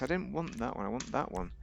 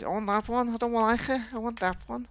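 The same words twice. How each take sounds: First: Said in the usual way. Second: High, whiny brat voice, far from own; mock childish tantrum. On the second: Player mocking his own pickiness over car parts, childish tantrum. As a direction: whine it like a spoilt kid demanding.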